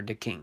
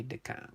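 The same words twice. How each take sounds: First: DeKing as "duh-KING", short "ih"; corrected pronunciation. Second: DeKing with an open "ah" ending, like "duh-KAH"; alternative pronunciation. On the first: Host correcting a viewer's name, DeKing as "duh-KING". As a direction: say DeKing to rhyme with "sing". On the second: Host trying a viewer's name, DeKing ending in "kah". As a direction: say DeKing with "ah" in place of the "ih". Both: Shown as a demonstration. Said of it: "it's pronounced DeKing".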